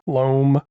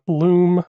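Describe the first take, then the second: First: The vowel is a long oh sound. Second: The vowel is a long oo sound. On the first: The speaker calls it right. "It's like Rome" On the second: The speaker calls it wrong. "not loom"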